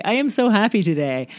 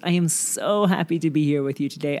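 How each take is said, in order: First: "am" lifted and leaned on, higher pitch; stress on am. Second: Said in the usual way. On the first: Shown as a demonstration. Podcast host restating her joy, stress on "am". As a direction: push the word "am" up.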